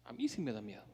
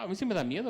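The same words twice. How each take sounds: First: Quiet confession. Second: Raised and louder, stressing "sí"; emphatic declaration. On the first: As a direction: lower and softer, stressing "mí". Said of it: "Ah, a mí sí me da miedo". (confesión baja y suave, acento en "mí") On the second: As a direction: say it out strong, admitting fear. ("sí" marcado, más alto y fuerte) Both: Real, not acted.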